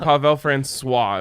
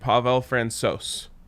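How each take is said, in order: First: The surname is said the French way. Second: The surname is said the Czech way. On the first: The speaker calls it wrong. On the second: The speaker calls it right.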